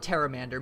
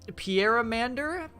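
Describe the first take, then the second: First: The word begins without a P sound. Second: The word begins with a sounded P. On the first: "Maybe the P is silent" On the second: "it's P"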